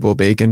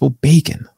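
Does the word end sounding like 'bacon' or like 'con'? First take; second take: con; bacon. First: It is said as WOBA plus con. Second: It is said ending in the word bacon. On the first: The speaker calls it wrong. "you say WOBACON instead of" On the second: The speaker calls it right. "it's bacon"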